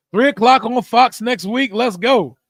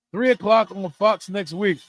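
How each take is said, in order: First: Louder, higher hyped call; excited announcement. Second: Said in the usual way. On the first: Real, not acted. Streamer hyping the game time, loud and excited. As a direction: announce it like great news. Celebrating big game news.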